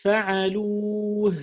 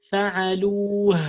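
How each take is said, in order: First: فَعَلُوا with a clear light end; proper ending. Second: فَعَلُوا punched loud and fast; exaggerated. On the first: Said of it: "We have to pronounce it properly". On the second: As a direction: overdo the ending. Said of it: "we don't have to exaggerate". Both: Shown as a demonstration.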